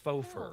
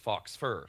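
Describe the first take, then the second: First: The first word ends in a plain oh vowel. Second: The first word ends with a clear ks sound. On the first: The speaker calls it right. "no, it's faux, it's fake, it's faux fur" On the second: The speaker calls it wrong. "people walked around referring it to to it as fox fur"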